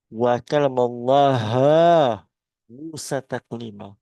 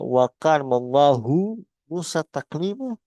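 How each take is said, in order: First: Allah ends with an 'a' vowel. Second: Allah ends with a 'u' vowel. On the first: Allah is the one spoken to. The speaker calls it wrong. "diganti menjadi" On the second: Allah is the one who speaks. The speaker calls it right. "yang benar adalah"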